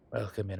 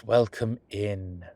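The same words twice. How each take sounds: First: Said in the usual way. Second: Louder, slow welcome to the class. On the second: Acted. Professor greeting the class, a louder slow welcome. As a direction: project it to the whole room.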